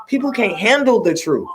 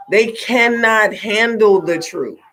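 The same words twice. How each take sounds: First: Said in the usual way. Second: "They cannot handle the truth" slowed, each word leaned on; slow emphatic stress. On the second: Real, not acted. Driving home to viewers that people reject honesty, slow and emphatic. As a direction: spell out "cannot" slowly and firmly. Repeating her point for emphasis.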